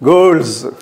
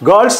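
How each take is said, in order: First: The word ends with a z sound. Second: The word ends with an s sound. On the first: The speaker calls it right. "జ్ అని రావాలి ఇక్కడ" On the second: The speaker calls it wrong. "గర్ల్స్ అనకూడదు"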